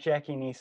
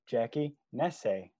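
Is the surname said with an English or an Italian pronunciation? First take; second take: English; Italian. First: The surname has an English pronunciation. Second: The surname has an Italian pronunciation. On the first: The speaker calls it wrong. "It's not Jackie Nese" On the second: The speaker calls it right. "We got the name pronounced the right way"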